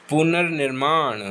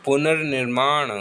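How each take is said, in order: Both takes have the same delivery.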